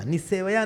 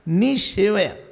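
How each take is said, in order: First: The second consonant is a plain s sound. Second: The second consonant is an sh sound. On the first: The speaker calls it wrong. "निसेवया नहीं" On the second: The speaker calls it right. "जब स के पहले ई आता है तो स श हो जाता है"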